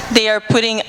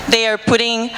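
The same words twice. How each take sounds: The two takes are said the same way.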